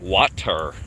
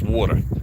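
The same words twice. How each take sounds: First: It has a general American pronunciation. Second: It has a Philadelphia accent pronunciation. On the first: The speaker is not from Philadelphia. "It's not water" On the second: The speaker is from Philadelphia. "If they don't say water, they're not from Philadelphia"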